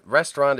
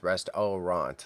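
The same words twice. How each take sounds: First: Said in the usual way. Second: "restaurant" slowly as rest-OH-ront, three full beats; spelling mnemonic pronunciation. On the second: Shown as a demonstration. Streamer showing how they remember spelling it, "restaurant" as rest-oh-ront. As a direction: sound out "restaurant" with a full oh in the middle. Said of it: "That's how I say it in my head".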